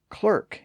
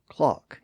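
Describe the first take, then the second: First: The vowel sounds like 'er' with an R. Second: The vowel sounds like 'ah' without an R. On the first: "pronounced clerk in American English" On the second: "Clark or clock in standard British English"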